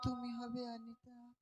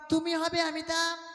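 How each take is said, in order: First: It is said softly and quietly. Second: It is said at a medium volume.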